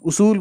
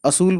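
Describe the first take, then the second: First: The word begins with a 'u' vowel. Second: The word begins with an 'a' vowel. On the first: The speaker calls it right. "लेकिन उसूल है।" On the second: The speaker calls it wrong. "वैसे कुछ लोग असूल बोलते हैं"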